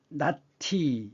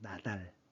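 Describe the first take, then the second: First: The final consonant links over as an aspirated t. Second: The word breaks first, then a plain d links over. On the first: The speaker calls it wrong. "원래는 이것이 낮티 이렇게 돼야 되는데" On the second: The speaker calls it right. "끊어서 발음하면 ... 나달이 됩니다"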